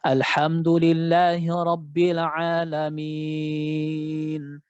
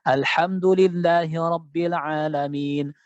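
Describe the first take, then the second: First: The final vowel is stretched for six counts. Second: The final vowel is stretched for two counts. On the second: "Atau dia baca dua"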